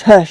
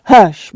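First: Gentle hush. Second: Firm "Hush", louder, cutting her off; sharp hush. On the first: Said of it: "brushed the hair ... gently". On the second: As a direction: scold a child with a clipped "Hush". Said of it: "Don't talk like that". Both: A narrator's reading.

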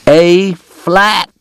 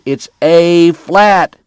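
First: High, loud correction; a drunk man yelling at a pianist; shouting. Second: High, loud and very slow, spelling it out; a drunk man correcting a pianist, drawn out; slow emphatic shout. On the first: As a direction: bark the note at the piano player. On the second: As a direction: hammer home "flat" like a lesson. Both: Acted. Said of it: "Doc shouted".

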